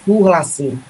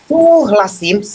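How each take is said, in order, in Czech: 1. Říká se potichu, hlas klesá níž. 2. Říká se nahlas a rázně, hlas zvýšený. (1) "stíšime intonáciu. Súhlasím, programujem a idem nižšie a nižšie" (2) "zvýšim, to znamená, že dávam príkaz, súhlasím, hej, ale rázne to hovoríme"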